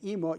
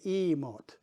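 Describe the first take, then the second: First: The word is said quickly and clipped. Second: The word is said slowly, stretched out.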